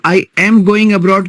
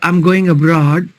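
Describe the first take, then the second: First: I am is said as two full words. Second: I am is contracted into one syllable. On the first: The speaker calls it wrong. "की जगह" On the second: The speaker calls it right. "बोलो"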